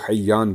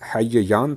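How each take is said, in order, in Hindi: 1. दोनों एक जैसे व्यंजन मिलकर एक दोहरी ध्वनि बन जाते हैं। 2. दोनों एक जैसे व्यंजन अलग-अलग बोले जाते हैं। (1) "दोनों का आपस में इदगाम कर दिया तो हय्यान बन गया।" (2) "ये असल में हय्यान था।"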